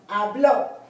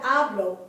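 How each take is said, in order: First: The stress is on the last syllable. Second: The stress is on the first syllable. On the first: The speaker calls it right. "accent on the O? Because this is where the stress is" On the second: The speaker calls it wrong. "Not hablo"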